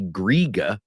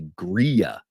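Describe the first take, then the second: First: The middle consonant is a hard G sound. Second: The middle consonant is a Y sound. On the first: The speaker calls it wrong. "we don't say griga" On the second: The speaker calls it right. "it takes a Y sound"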